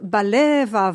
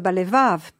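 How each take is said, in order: First: The stress falls before the final syllable. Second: The stress falls on the final syllable. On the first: "On dit aussi kolod balevav" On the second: This is the modern Hebrew accentuation. "au lieu de balevav"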